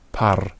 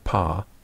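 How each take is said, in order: First: The word ends with a clearly sounded R. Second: The word ends on the vowel without an R. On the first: It is clearly a long syllable. The speaker calls it right. "a Roman would say pa and par" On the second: It sounds the same as a short syllable. The speaker calls it wrong. "in an English uh, pronunciation, there'd be no distinction"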